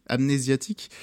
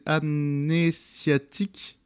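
First: Said in the usual way. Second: Syllable by syllable. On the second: Shown as a demonstration. Announcing an album title to listeners, syllable by syllable. Titre d'album détaché puis redit.

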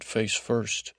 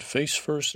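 First: Face first. said level and falling, settled; matter-of-fact Face first. with a falling end; flat confirmation. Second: Face first? rising high on FACE, a real question; surprised question, Face first? pitched up. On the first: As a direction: state Face first. as a firm answer. He confirms her question. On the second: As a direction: ask Face first? with a lifted, doubtful tune. She asks, he echoes it. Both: Retold or imitated.

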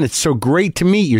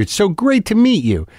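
First: Eager fan with a mild lift on "It's so great to meet you"; earnest fan, first take. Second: "It's so great to meet you" much higher, with "great" pushed hard; earnest fan, gushing repeat. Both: Retold or imitated. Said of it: "Very earnest guy".

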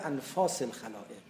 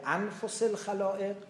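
First: Long second vowel in انفاس, as anfās; anfās reading. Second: Short second vowel in انفس, as anfos; anfos reading. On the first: Lecturer quotes the other wording of the saying, انفاس read anfās. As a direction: say انفاس with a long open ā, an-FAAS. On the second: Lecturer quotes one wording of the saying, انفس read anfos. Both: Shown as a demonstration. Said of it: "به تعبیری".

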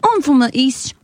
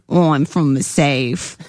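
First: Put-on eastern British accent, pitched up; amateur East British impression, higher voice. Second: Low, drawn-out southern British accent; amateur South British impression, pitched down. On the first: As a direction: attempt an East of England accent. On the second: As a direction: attempt a slow South of England accent. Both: Shown as a demonstration. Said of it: "different types of British accent".

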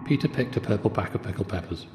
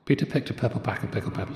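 First: Said in the usual way. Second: Fast tongue twister. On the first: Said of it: "tongue twister said twice". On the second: Shown as a demonstration. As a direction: rattle it off quickly. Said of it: "tongue twister said twice, faster".

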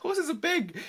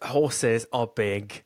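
First: "Horses are big" repeated high through a laugh. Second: "Horses are big" said very slowly, deadpan; mock solemn lesson. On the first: Real, not acted. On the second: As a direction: drag out "Horses are big" like a grave moral. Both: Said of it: "the lesson of this podcast".

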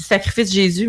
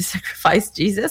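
First: Jésus said the French way, zhay-ZU; French pronunciation. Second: Jesus said the English way, JEE-zus; "Jesus" with an English j and first-syllable stress; English pronunciation. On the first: Host reading a band name, French style. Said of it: "mais c'est Sacrifice Jesus". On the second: Host correcting the band name into English. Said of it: "Je dis Sacrifice Jésus". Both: Shown as a demonstration.

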